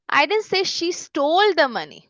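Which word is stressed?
stole. The stress falls on the word stole. She borrowed it rather than stealing it. "उसने बोरो किए है, steel नहीं किए"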